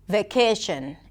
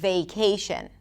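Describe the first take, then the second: First: The stressed vowel stays on one steady sound. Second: The stressed vowel glides into a second sound. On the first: The speaker calls it wrong. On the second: The speaker calls it right.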